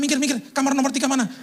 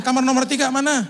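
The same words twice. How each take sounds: First: High, pushy hurry; mock frantic rush. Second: High, louder hurried demand, stress on tiga; loud frantic asking. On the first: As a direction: shove past everyone, pitched up. Rushing through hospital, pushing past. (terburu-buru mendesak, suara tinggi) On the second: Retold or imitated. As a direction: bark it out while hurrying. Rushing through hospital again. (bertanya keras dan tergesa-gesa, tekanan pada "tiga")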